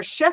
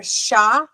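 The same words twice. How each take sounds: First: "sh" as the bare consonant, no full vowel; sound without ah. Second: "sha" with a full ah vowel; ah after the sound. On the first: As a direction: cut the ah off "sh". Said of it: "I gotta start saying, stop doing it". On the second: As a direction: say "sha", letting an open ah follow the sh. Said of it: "I put an ah after everything". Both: Shown as a demonstration.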